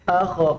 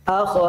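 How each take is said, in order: No difference in how they are said.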